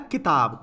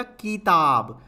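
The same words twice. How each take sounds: First: किताब with a short, quick कि; short vowel. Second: किताब with a loud, drawn-out कीई; long vowel. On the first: Teacher reads the word as written, short vowel. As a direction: say किताब with a brief first i. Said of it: "किताब में की एकदम से आ गया". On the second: Teacher shows the wrong long matra, stretched vowel. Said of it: "बड़ी की मात्रा लगा दूं". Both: Shown as a demonstration.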